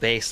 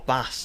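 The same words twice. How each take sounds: First: The vowel is long, rhyming with face. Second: The vowel is short, rhyming with mass. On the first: The speaker calls it right. "bass like guitar is correct" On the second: The speaker calls it wrong. "Most streamers say bass like fish"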